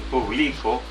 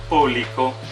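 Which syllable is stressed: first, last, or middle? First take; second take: middle; first. First: The stress is on the middle syllable. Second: The stress is on the first syllable. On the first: "que es una palabra grave" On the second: "que es una palabra esdrújula"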